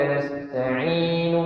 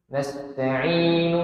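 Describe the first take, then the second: Both takes have the same delivery.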